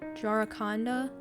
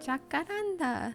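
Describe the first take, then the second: First: The second consonant is an r sound. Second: The second consonant is a k sound. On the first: The speaker calls it wrong. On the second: The speaker calls it right.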